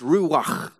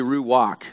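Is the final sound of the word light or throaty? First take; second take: throaty; light. First: The final sound is a harsh rasp in the throat. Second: The final sound is light, without a throaty rasp. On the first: The speaker calls it right. "But it's ruach. And that's how you pronounce it in original Hebrew. You get kind of hokaloogie" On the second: The speaker calls it wrong. "if we pronounce it our way, it would be ruach"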